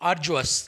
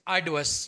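First: A 'j' sound follows 'ar', American style. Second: A clear 'd' sound follows 'ar', British style. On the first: "अगर आप American English को use कर रहे हैं" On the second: "अगर आप British English use कर रहे हैं"

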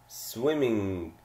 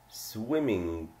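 No difference in how they are said.

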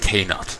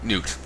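First: The name starts with a clearly pronounced K sound. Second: The name starts with an N sound, K silent. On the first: "Because otherwise it's just, I'm K-Nut" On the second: "So that's what I'm doing. That's how I heard someone pronounce it"

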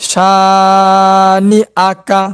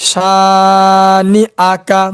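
Both takes have the same delivery.

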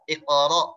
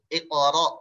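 Both takes have the same delivery.

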